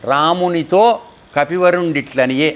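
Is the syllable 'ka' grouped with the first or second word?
second. The break falls right after 'ramunito'. The best of monkeys spoke thus to Rama. The speaker calls it right. "అనేది మాట"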